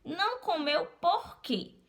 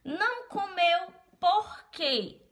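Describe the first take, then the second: First: High again with the final "por quê"; question at the end. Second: Slow, high "por quê" stressed; question at the end. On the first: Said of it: "A última palavra que eu coloquei foi o porquê". (pergunta com "por quê" no final) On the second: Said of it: "se eu quero dizer". (pergunta lenta com "por quê" no final) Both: Shown as a demonstration.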